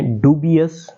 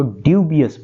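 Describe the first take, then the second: First: American-style ڈوبیس, opening "DOO-bee"; American pronunciation. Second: British-style ڈیوبیس, opening "dyoo-bee"; British pronunciation. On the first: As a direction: say ڈوبیس with a plain "doo" first syllable, no y-glide. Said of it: "American style میں ڈوبیس". (ڈوبیس امریکی تلفظ میں، "ڈو" سے شروع) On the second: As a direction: say ڈیوبیس with a y-glide after the d, "DYOO". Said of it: "British میں اس کو ڈیوبیس". (ڈیوبیس برطانوی تلفظ میں، "ڈیو" سے شروع) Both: Shown as a demonstration.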